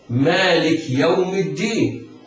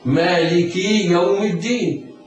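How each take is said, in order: First: The k carries no vowel at all. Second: The k is followed by a long i vowel. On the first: "فلا يقول القارئ" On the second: "بإشباع الكسر"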